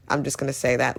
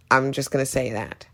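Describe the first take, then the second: First: "say" leaned on near the end; stress on say. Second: "I'm" leaned on at the start; stress on I'm. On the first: Reviewer repeating her bold opinion, stress on "say". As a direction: repeat it, pressing "say". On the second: Reviewer owning a bold opinion, stress on "I'm". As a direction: own it, pressing "I'm". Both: Real, not acted.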